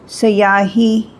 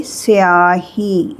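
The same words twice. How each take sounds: First: स्याही drawn out slowly, as written; spelling pronunciation. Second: स्याही said as se-ahi, with an e after the s; spoken pronunciation. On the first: Teacher slowly reads स्याही as it is written. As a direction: sound out स्याही slowly, letter by letter. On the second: Teacher gives the spoken form of स्याही. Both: Shown as a demonstration. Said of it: "लेकिन इसको बोलेंगे स्याही".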